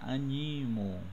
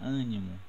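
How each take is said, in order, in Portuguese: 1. A tônica cai depois da primeira sílaba. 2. A tônica cai na primeira sílaba. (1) "Se eu tirar esse acento aqui no, no A, vai ficar animo" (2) "Se eu coloco o acento no A, vai ficar ânimo"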